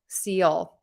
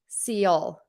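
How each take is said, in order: First: The ending is said as two syllables. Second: The ending is said as two syllables.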